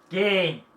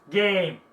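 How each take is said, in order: No difference in how they are said.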